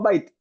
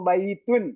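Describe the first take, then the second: First: The word ends abruptly without the ending. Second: The word ends with a full -un ending. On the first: This is the spoken form used when pausing. "നിർത്തി പറയുമ്പോൾ ബൈത്ത് എന്നാണ് പറയുക" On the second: This is the formal written language form. "അവസാനത്തെ അടയാളം കൃത്യമായി ഉച്ചരിക്കുന്നതാണ് നമ്മൾ പഠിക്കുന്നത്"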